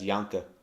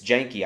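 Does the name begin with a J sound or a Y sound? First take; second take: Y sound; J sound. First: The name begins with a Y sound. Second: The name begins with a J sound. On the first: The speaker calls it wrong. "Null always mispronounces it as Yanka" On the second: The speaker calls it right. "It's Janky"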